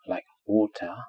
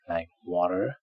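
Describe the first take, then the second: First: The middle consonant is a clear t. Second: The middle consonant sounds like a soft d. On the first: "in received pronunciation, which is British, it is pronounced t" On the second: "In American English, it sounds more like d"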